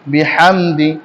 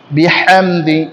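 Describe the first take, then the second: No difference in how they are said.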